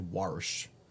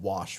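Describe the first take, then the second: First: The word has an added 'r' sound. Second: The word has no 'r' sound.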